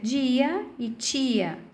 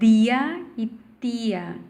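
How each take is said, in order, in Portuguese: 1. O t e o d soam como ch e j. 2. O t e o d são oclusivas simples. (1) "o T e o D com um som como se fosse o, o tino, tico, tch" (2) "com a fonética próxima, então, a do espanhol"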